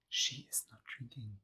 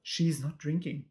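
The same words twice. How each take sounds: First: Hushed unvoiced whisper. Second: Said in the usual way. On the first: Real, not acted. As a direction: whisper it like a secret. Repeats the line as a whisper.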